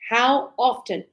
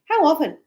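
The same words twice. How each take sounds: First: Each sound is fully and slowly pronounced. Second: The words are run together very fast. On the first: "So fully pronounced" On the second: "native speakers, we go... it's very fast"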